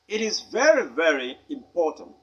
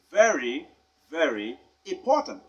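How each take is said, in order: First: Very stressed, the first very lifted; emphasis on very. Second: Very hit firmly both times; emphasis on very. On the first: Teacher to pupils, stressing very, very important. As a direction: lean on the first very, then ease off. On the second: Teacher showing the emphasis on very. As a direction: press on each very. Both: Shown as a demonstration. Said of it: "Notice the emphasis".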